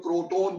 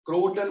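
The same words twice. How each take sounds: First: "क्रोटोन" with a full long o in both syllables; alternative pronunciation. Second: "क्रोटन" with a short, reduced second vowel; one variant pronunciation. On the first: Teacher giving students the other name, "क्रोटोन" said with long "-tone". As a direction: say "क्रोटोन" ending in a rounded "-tone". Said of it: "क्रोटोन बोल देते हैं". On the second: Teacher giving students one common name, "क्रोटन" said with short "-tən". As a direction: say "क्रोटन" ending in a quick unstressed "-tən". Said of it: "क्रोटन बोल देते हैं कई लोग". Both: Shown as a demonstration.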